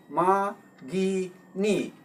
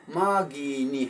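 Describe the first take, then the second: First: ꯃꯥꯒꯤꯅꯤ slowly split into three separate syllables. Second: Said in the usual way. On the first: Shown as a demonstration. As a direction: break ꯃꯥꯒꯤꯅꯤ into three drawn-out beats, pausing between each. (ꯃꯥꯒꯤꯅꯤ ꯈꯣꯟꯊꯣꯛ ꯑꯍꯨꯝ ꯇꯣꯉꯥꯟꯅ ꯇꯞꯅ ꯍꯥꯏꯕ) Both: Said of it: "ꯈꯣꯟꯊꯣꯛꯁꯤ ꯑꯍꯨꯝꯅꯤ".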